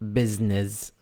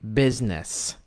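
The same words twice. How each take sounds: First: The word has Arabic-style syllable stress. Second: The word has English-style syllable stress. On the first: The speaker calls it wrong. "not business" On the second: The speaker calls it right. "the word business"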